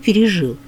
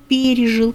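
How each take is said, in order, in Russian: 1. Ударение падает на последний слог. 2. Ударение падает на первый слог, на приставку.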